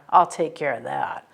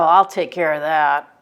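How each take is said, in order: First: It is said in a menacing, resentful tone. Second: It is said in a plain, cooperative tone. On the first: The speaker is hinting at harming someone. "if somebody looks at you and goes" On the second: The speaker will simply do the assigned job. "as in I'll take care of that job or whatever that I was just told to do"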